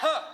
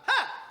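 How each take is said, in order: First: It is said loudly. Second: It is said even more loudly.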